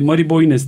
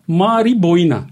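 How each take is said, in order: First: The surname ends with an s sound. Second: The surname ends with an a vowel. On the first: The speaker calls it wrong. "Mari Boynes demiştim" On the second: The speaker calls it right. "Mari Boyna diye telaffuz ediliyormuş"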